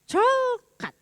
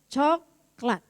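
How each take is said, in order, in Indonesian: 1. L datang sebelum k. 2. K datang sebelum l. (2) "cucu saya tuh nggak bisa bilang coklat"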